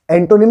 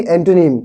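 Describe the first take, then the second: First: एंटोनिम said with a full clear o, "en-to-nim"; wrong pronunciation. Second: एंटोनिम with the middle o swallowed, "ent-nim"; correct pronunciation. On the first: Teacher showing the class the wrong way, full o in एंटोनिम. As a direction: say एंटोनिम the way students get it wrong, every vowel spelled out. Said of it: "एंटोनिम नहीं". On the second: Teacher giving the class the right form, एंटोनिम as "ent-nim". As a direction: say एंटोनिम quickly, the middle vowel almost gone. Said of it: "एंटोनिम नहीं, एंटोनिम". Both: Shown as a demonstration.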